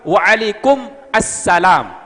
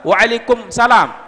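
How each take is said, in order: First: The definite article sound before salam is heard. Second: The definite article sound before salam is missing. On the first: The reply is definite. The speaker calls it right. "itu baru betul" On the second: The reply becomes indefinite. The speaker calls it wrong. "Salah. Kalau waalaikumsalam berarti alif lamnya hilang"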